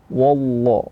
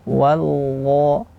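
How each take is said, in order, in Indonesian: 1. Suku kata pertama wa itu berat dan tebal. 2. Suku kata pertama wa itu ringan dan tipis. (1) "Tidak boleh dibaca wallah, ... wa-nya tebal" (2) "wa tipis, dha tebal"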